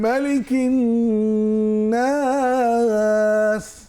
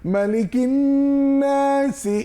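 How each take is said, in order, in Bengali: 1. nas-এর স্বরটি থামার আগে দীর্ঘ করে টানা হয়। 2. nas-এর স্বরটি ছোট, পরের অংশের সাথে যুক্ত। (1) "অবশ্যই বেশি করে টেনেছি, এবং তিন আলিফ পরিমাণ টেনেছি।" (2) "তখন কিন্তু আমি এক আলিফই পড়তাম।"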